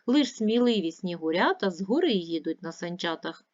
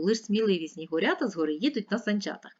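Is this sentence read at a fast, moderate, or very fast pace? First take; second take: moderate; very fast. First: The sentence is read at a moderate pace. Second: The sentence is read at a very fast pace. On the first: "Давайте разом читати" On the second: "І ще швидше"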